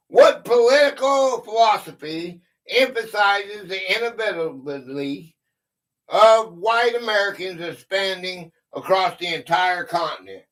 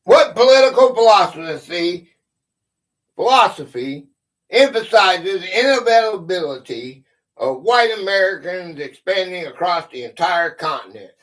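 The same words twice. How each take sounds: First: Said in the usual way. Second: Loud, deliberate push through the tricky words; determined reread of the hard question; careful full reading. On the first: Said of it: "I can't even say it". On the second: Real, not acted. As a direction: say every word so it lands, pushing through "inevitability". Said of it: "Don't make me say it again".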